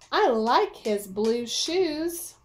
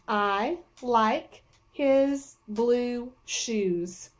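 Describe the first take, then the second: First: It is read smoothly, with strong feeling. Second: It is read choppily, word by word.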